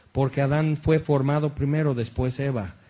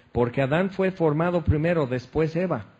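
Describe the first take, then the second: The two takes are said the same way.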